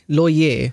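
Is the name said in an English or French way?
French. The name is said with a French pronunciation. "How do you say that in French?"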